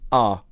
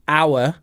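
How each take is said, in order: First: The word is said quickly in a reduced form. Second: The word is said in its full, strong form. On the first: "but quickly we just say our" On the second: "the strong form is our"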